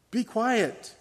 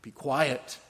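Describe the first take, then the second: First: Higher, louder rebuke; Jesus silencing the spirit, raised and forceful; sharp command. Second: Said in the usual way. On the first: Acted. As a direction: order the demon to silence. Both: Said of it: "Jesus reprimanded him".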